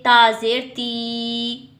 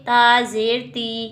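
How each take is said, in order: First: The final vowel is stretched out long. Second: The final vowel is said gently and easily. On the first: The speaker calls it wrong. "ना ही हम इसको लंबा करके पढ़ेंगे" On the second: The speaker calls it right. "नरमी के साथ पढ़ेंगे, आराम के साथ"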